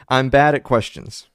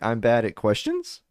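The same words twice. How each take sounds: First: The voice falls at the end. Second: The voice rises at the end. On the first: It is a plain statement. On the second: It sounds like a question.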